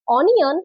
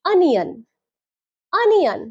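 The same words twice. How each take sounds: First: "অনিয়ন" opening on a round O, on-i-on; wrong pronunciation. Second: "অনিয়ন" as un-ian, open first vowel, falling; correct pronunciation. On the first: Teacher showing the mistake, "অনিয়ন" pronounced on-i-on. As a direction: say "অনিয়ন" with O as written. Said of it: "কিন্তু এটা ভুল". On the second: Teacher modelling for learners, "অনিয়ন" pronounced un-ian. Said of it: "তাই সঠিক উচ্চারণ হবে". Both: Shown as a demonstration.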